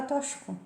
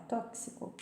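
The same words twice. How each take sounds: First: "tóxico" with an sh sound for the x; wrong pronunciation. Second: Said in the usual way. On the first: Shown as a demonstration. Teacher showing the common error, x as sh. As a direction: say "tóxico" as "tóshico". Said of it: "tem gente que fala tóxico". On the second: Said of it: "não é tóxico".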